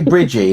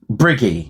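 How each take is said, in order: First: The middle consonant is a J sound. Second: The middle consonant is a hard G. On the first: The speaker calls it wrong. "I hear other people say Bridgie" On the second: The speaker calls it right. "I'm saying it right"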